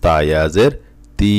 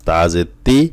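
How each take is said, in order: First: Final তি held long; with stretch. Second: Final তি short; no stretch. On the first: Teacher drills students on madd, long-held তি. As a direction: draw out the ee of তি. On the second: Teacher drills students on short vowels, short unheld তি. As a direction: keep the ee of তি brief. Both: Shown as a demonstration. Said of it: "কোথায় টান আছে এবং কোথায় টান নাই".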